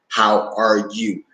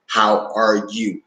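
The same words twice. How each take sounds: First: Each word is said separately, chopped apart. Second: The same.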